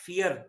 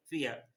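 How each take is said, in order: First: "fear" with the R pronounced at the end; final R sounded. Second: "फियर" ending in a vowel, no R; silent final R. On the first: Teacher showing what not to say, "fear" with its R sounded. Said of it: "not fear". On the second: Teacher showing how it is pronounced, "फियर" with silent R. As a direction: drop the R at the end of "फियर". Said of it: "आर एंड में जो है वो पढ़ा नहीं जाता". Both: Shown as a demonstration.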